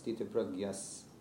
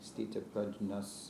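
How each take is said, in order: First: The cluster is pronounced like 'gy'. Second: The cluster is pronounced like 'jn'. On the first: "the Bengali is Gya, it's like GY. So I say Pragyas" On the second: "instead of saying stita prajnas"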